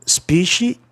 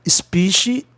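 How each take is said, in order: No difference in how they are said.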